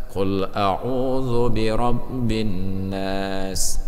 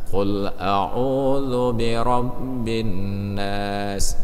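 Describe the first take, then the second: The two takes are said the same way.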